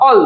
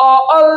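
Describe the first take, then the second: First: Said in the usual way. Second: অ-, অল broken into two beats; wrong syllable split. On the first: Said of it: "একটাই syllable". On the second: Shown as a demonstration. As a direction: force অ-, অল apart with a gap after অ. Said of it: "হয় না কিন্তু".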